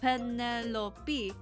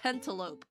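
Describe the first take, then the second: First: It ends with a separate final 'pee' syllable. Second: It ends in one syllable rhyming with 'lope'. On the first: The speaker calls it right. "the P E like be like a like a distinct thing" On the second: The speaker calls it wrong. "I thought Penelope was also pronounced like that"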